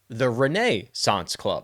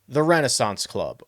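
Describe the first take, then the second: First: Renaissance is said the club's own way. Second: Renaissance is said the speaker's usual way. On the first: "I guess the proper pronunciation. That's how they pronounce it" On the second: "as you may hear me say"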